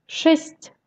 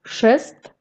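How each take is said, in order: First: Шесть with a palatalised final ть; soft final T. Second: Шест with a hard final т. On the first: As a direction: end шесть on a soft т, tongue raised. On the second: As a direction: end шест on an unsoftened т. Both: Shown as a demonstration. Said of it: "La consonne devient mou".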